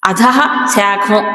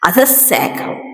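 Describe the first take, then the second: First: The visarga is a separate 'ha' before shakham. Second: The visarga becomes a doubled 'sh' sound. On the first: The speaker calls it wrong. "అనం కదా" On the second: The speaker calls it right. "కలిపి చెప్పినప్పుడు అధశా శాఖ శావత్తు వచ్చింది"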